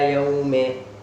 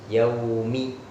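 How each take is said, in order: First: The word ends with an 'e' vowel. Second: The word ends with a clear 'i' vowel. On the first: The speaker calls it wrong. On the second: The speaker calls it right.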